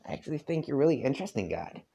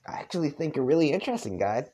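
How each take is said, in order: First: Fast, higher southern reread; a light southern accent. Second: Fast, higher southern reading; a light southern accent. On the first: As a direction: rattle it off again in a southern accent. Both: Acted. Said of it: "I'm trying to do a southern accent".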